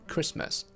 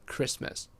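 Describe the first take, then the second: First: The t sound is dropped before the m. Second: The t sound is dropped before the m.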